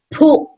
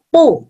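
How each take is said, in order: First: The p is released with a strong puff of air. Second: The p is released without a puff of air. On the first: "P di depan, ... yang depan dihentak" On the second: "B di belakang, ... yang belakang jangan"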